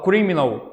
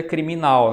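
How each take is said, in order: First: Criminal stressed on CRI, English-style; English stress on first syllable. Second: Criminal stressed on the final NAL; Portuguese stress on last syllable. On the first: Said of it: "em inglês é uma proparoxítona". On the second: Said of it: "já na língua portuguesa vira criminal". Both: Shown as a demonstration.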